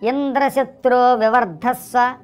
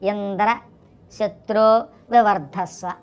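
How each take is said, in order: First: Indra and shatro are said as one word. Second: Indra is split off from shatro by a break. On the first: The chant asks for Indra's enemy to grow. The speaker calls it right. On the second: The chant asks for Indra himself to grow. The speaker calls it wrong.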